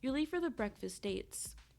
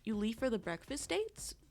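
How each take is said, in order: First: It ends with a falling, statement tune. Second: It ends with a rising, question tune.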